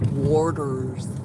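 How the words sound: It is said with the Pennsylvania pronunciation. This is how people from Pennsylvania say it. "not Warders, like Pennsylvania people"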